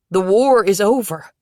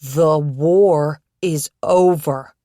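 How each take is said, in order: First: Said in the usual way. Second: The war is over, drawn out slowly and louder; slowly, word by word. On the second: Acted. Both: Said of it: "I'll say it slow so you understand".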